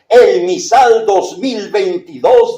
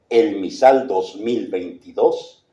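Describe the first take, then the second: First: It sounds like a pushy, hawking radio advertisement. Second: It sounds like a formal, dignified official announcement. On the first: "el tono de voz merolico, comercial de los locutores de radio comercial" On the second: "el tono de voz institucional"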